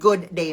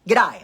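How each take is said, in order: First: Both words are said fully and separately. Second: The words are squeezed into one clipped word. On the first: The speaker calls it wrong. "that's not good day" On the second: The speaker calls it right. "It's g'day"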